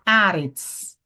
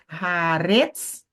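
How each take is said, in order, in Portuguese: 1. A tônica cai antes da última sílaba. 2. A tônica cai na última sílaba. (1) "O acento está onde? Ao lado do kametz" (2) "você não vai ler haaretz, não é retz"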